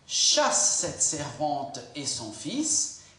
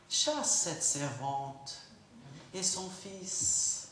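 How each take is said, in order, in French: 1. Ça se dit sur un ton dur et plaintif. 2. Ça se dit sur un ton doux et tendre. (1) "pardonne-moi mon, mon intonation de voix" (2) "chérie, tu sais quoi?"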